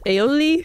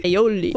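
First: "Aioli?" raised, with a rising end; questioning tune. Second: "Aioli." lower, with a falling end; settled statement. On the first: Asking themself what fancy mayonnaise is called, questioning. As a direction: say "Aioli?" as an unsure guess. Unsure guess at the word. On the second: Answering their own question about fancy mayonnaise, decided. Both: Real, not acted.

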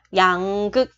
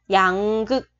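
Both takes have the same delivery.

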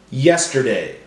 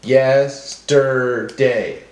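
First: Said in the usual way. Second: Yes... ter... day, very slow; broken into syllables. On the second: Shown as a demonstration. Teacher helping class hear syllables, slowly one at a time. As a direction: sound it out beat by beat. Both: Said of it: "break up our words into syllables".

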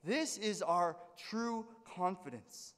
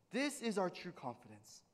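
First: "This is our true confidence" drawn out very slowly, leaning on "This"; emphatic slow quote. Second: Said in the usual way. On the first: Shown as a demonstration. Pastor quoting Paul to congregation, slow emphatic declaration. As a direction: plant each word slowly and firmly. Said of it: "Paul is saying".

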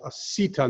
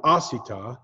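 First: "Asita" stressed on the second-to-last syllable; correct syllable stress. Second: "asita" stressed on the first syllable; wrong syllable stress. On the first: Teacher showing Hebrew accent, "Asita" stressed on "si". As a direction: lean on the "si" in "Asita". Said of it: "it's the second to last". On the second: Teacher showing the mistake, "asita" with first-syllable stress. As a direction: hit the opening "a" of "asita". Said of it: "not asita". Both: Shown as a demonstration.

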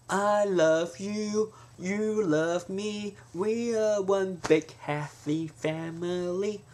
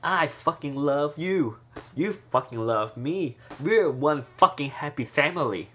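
First: High, slow, sugary sweet; sweet and gentle. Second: Slow, deliberate, every fucking landed; mean it with weight; emphatic swearing. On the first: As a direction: coo it like a greeting card, slowly. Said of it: "But if you go". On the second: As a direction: intense heartfelt declaration. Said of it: "it may sound so". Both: Shown as a demonstration.

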